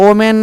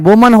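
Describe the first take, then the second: First: The word begins directly with a vowel. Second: The word begins with a w sound. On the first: The speaker calls it wrong. "ओमेन नहीं होता, उच्चारण गलत होती" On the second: The speaker calls it right. "वुमन होता है"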